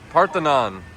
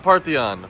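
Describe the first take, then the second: First: The middle n sound is clearly said. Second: The middle n sound is left out. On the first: The speaker calls it right. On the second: The speaker calls it wrong.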